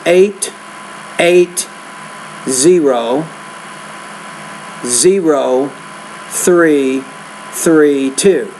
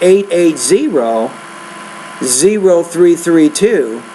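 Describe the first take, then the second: First: There is a pause after every single digit. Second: The digits run together in two groups. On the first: The speaker calls it wrong. "I paused after each time" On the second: The speaker calls it right. "if you group it into two groups"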